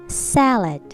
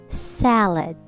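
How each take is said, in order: No difference in how they are said.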